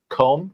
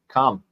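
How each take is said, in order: First: The vowel rhymes with the vowel of home. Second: The vowel rhymes with the vowel of hum. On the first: The speaker calls it wrong. "C O M E" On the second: The speaker calls it right.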